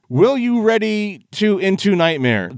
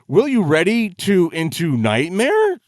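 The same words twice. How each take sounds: First: The line is read flatly, without inflection. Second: The line is read with expressive inflection. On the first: The speaker calls it wrong. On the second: The speaker calls it right.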